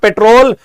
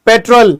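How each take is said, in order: First: It is said like the word patrol. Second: It is said like the word petrol. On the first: It names police going on rounds, not the fuel. The speaker calls it wrong. "So this is not पेट्रोल" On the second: It names the fuel. The speaker calls it right. "This is petrol"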